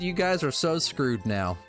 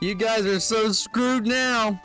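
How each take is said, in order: First: It is read in the speaker's own plain voice. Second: It is said in a put-on character voice. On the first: "not hearing a voice attached to it" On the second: "I'll do an impression of it"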